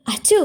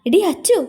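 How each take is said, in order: First: Short higher-pitched call of Achu. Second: എടി Achu called high and urgently; insistent call. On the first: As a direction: call Achu to rouse a friend. Calling friend lying face down. (Achu എന്ന് ഉയർത്തി വിളിച്ച്) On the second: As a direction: rouse her with a sharp, high എടി Achu. Calls again, more insistently. (എടി അച്ചു എന്ന് നിർബന്ധിച്ചു വിളിച്ച്) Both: A narrator's reading.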